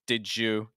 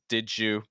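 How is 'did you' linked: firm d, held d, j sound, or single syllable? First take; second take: j sound; j sound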